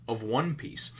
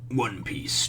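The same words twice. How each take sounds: First: Said in the usual way. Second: Hushed whisper of the title. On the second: Shown as a demonstration.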